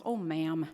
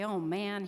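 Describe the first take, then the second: First: "ma'am" ending on an m, low and emphatic; "ma'am" said loud and low in place of "man"; toddler mispronunciation. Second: Said in the usual way. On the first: Retold or imitated. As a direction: imitate a small child's mix-up, landing hard on "ma'am". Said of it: "he gets words and stuff mixed up". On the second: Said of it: "most people say".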